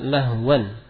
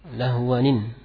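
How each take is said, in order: First: The word ends plainly with an 'an' sound. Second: The word ends with an added 'nin' sound. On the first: The word is read in its basic form. The speaker calls it wrong. "secara asal kalau kita baca lahwan" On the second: The word links to the following word. The speaker calls it right. "Nun al-iwad. Yang berharokat kasrah"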